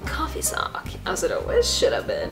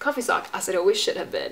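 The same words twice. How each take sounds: First: It is said in a put-on commercial voice. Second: It is said in a plain, ordinary voice.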